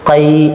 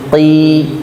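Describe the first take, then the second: First: The vowel glides from a toward i. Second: The vowel is a plain short i. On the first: The speaker calls it wrong. "Jangan dibuat qai" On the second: The speaker calls it right. "Biasa saja"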